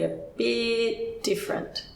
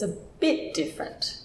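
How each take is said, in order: First: The vowel in bit is stretched long. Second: Bit is higher and louder, vowel kept short. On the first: The speaker calls it wrong. "that almost sounds like the English word beat" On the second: The speaker calls it right. "your voice went higher and you gave it a little bit more power"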